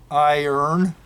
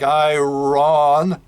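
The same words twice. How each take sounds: First: It is said with 'urn' at the end. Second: It is said as spelled, with 'ron' at the end. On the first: The speaker calls it right. "It's like iron. It's almost like we turn the letters around like it's I O R N" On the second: The speaker calls it wrong. "we don't pronounce it like iron"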